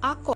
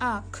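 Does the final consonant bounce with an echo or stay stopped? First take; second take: bounce; stopped. First: The final consonant is released with an echoing bounce. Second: The final consonant is held without any echoing bounce. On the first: The speaker calls it right. "কলকলা করে পড়তে হচ্ছে বললে" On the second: The speaker calls it wrong. "এটা যদি সাধারণভাবে পড়া হতো"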